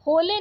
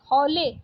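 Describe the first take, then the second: First: होले with closed o; wrong vowel. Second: Said in the usual way. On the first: Shown as a demonstration. Teacher rejecting a spelling, होले with plain o. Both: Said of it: "होले नहीं".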